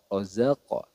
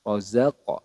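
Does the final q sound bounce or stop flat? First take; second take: bounce; bounce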